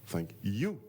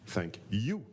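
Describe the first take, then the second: The two takes are said the same way.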